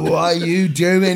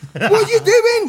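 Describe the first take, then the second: First: Slow, drawn-out question; head melting. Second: High, loud incredulous squeal; hammed-up shocked question; alarmed. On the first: Retold or imitated. Asking his mate while his head's melting, dazed. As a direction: drag it out, mock dazed. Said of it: "While my head's melting and stuff". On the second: Asking his crying mate on the dance floor, alarmed.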